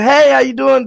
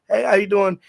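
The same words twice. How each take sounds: First: It is said brightly and cheerfully. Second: It is said quietly and reserved.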